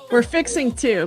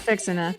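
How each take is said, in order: First: The words are said fully and separately. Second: The words are run together and reduced.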